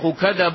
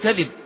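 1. الكلمة مضبوطة هكذا: kadhaba، وهي فعل. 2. الكلمة مضبوطة هكذا: kadhib، وهي اسم. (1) "ألا يقول الشيخ كذب علي" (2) "بل يقول كذب"

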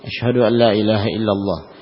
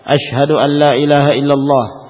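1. Diucapkan dengan suara pelan dan rendah. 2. Diucapkan dengan suara keras dan lantang. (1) "dengan suara lirih" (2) "Diulangi kembali dengan suara yang lantang"

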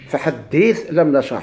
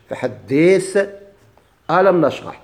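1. فيها النقل: تُحذف الهمزة وتُنقل حركتها إلى ما قبلها. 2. الهمزة قبل «لام» في «ألم» تُنطق بوضوح. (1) "عملنا النقل" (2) "عملنا التصحيح، إثبات الهمزة"

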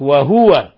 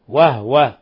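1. يأتي بعد صوت الهاء حركة. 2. لا توجد حركة بعد صوت الهاء. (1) "فيقرأها بالتحريك وهو" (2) "فإنه يسكن يقرأه وهو وهو"

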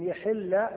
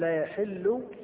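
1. الحركة بعد الحاء هي i. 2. الحركة بعد الحاء هي u. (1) "يحل بمعنى يجب عليكم" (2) "يحل بمعنى ينزل"

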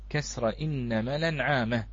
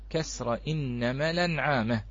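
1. تنتقل حركة الهمزة إلى اللام التي قبلها. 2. تنتقل حركة الهمزة إلى اللام التي قبلها.

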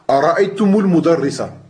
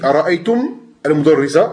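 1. Le m se relie au mot suivant avec u. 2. Le premier mot finit par m, sans voyelle ajoutée.

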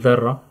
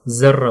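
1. الأصوات تتبع نطق التلاوة الفصيحة. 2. الأصوات تتبع النطق العامي للهجة.

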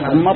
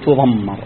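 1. الحرف الأوسط قصير ومفرد. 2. الحرف الأوسط طويل ومشدد. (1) "بالتخفيف" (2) "بالتشديد"

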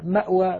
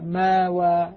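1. يُسمع صوت الهمزة قبل الـ w. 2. تحل ألف مد طويلة محل الهمزة. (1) "بالهمزة أيسر" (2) "فصارت كأننا نقلناها إلى ثقل"

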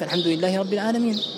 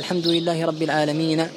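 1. تنتهي الكلمة الأخيرة بحرف ساكن. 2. تنتهي الكلمة الأخيرة بحركة واضحة. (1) "تقف" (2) "ما تقف هكذا"

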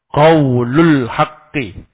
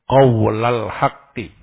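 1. Vokal setelah qawl adalah u. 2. Vokal setelah qawl adalah a. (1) "lamnya dirafa" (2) "membaca dengan menasab lam"

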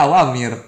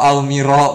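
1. Diucapkan sebagai awamir, dengan vokal setelah aw. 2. Diucapkan sebagai awmiro, tanpa vokal setelah aw. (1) "Padahal dibacanya awamir" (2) "Bacanya tadi awmiro"

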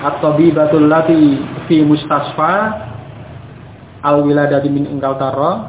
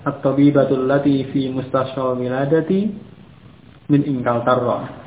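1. Terus berjalan tanpa jeda sebelum predikat. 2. Ada jeda sebelum predikat. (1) "akan juga bingung" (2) "kalau membacanya benar"

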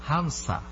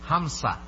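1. মাঝের ব্যঞ্জনটি s ধ্বনি। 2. মাঝের ব্যঞ্জনটি s ধ্বনি।

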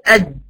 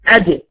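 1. الحرف الأخير مقفول تماماً بدون إطلاق. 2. الحرف الأخير يُطلق بارتداد فيه صدى. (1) "قفلت خالص" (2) "اقلقل عشان اطلع صوت الجيم"

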